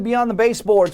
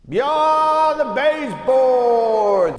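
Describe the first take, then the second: First: It is said in a plain, ordinary voice. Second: It is said in a big, echoing voice. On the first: The speaker calls it wrong. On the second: The speaker calls it right.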